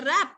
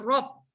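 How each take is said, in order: First: The syllable is light with an open vowel. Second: The syllable is heavy with a rounded vowel. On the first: The speaker calls it wrong. "jangan rab" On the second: The speaker calls it right. "sebutannya hendaklah ditebalkan"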